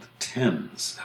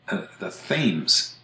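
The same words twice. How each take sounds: First: It is said with the British pronunciation. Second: It is said with the Connecticut pronunciation. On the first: This names the river in London. "the famous river that runs through London is called the Thames" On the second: This names the river in Connecticut. "the Thames River, Connecticut, is the Thames"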